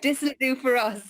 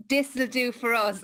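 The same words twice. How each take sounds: First: Corrected reading leaning on "will"; corrected stress. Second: Misreading with "This" punched; wrong stress. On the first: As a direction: stress on "will" in "This will do for us", falling after. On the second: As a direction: stress on "This" in "This will do for us", falling after. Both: Shown as a demonstration. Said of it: "I knew I was saying it wrong".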